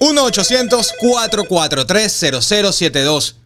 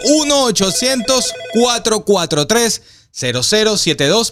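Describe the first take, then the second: First: The number is said at normal speed. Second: The number is said more slowly.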